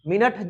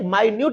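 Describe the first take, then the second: First: It is said like 'min-it', with a short vowel. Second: It is said like 'my-newt', with a long vowel. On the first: It refers to a unit of time. "मिनट जो है आपको पता है यह time का एक unit है" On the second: It means very small. "इस माइन्यूट का मतलब होता है सूक्ष्म"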